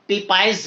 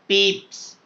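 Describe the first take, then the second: First: The name is said as two syllables, peep-ize. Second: The name is said as one syllable, peeps. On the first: The speaker calls it wrong. "नहीं पढ़ना" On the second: The speaker calls it right. "What is the pronunciation? पीप्स"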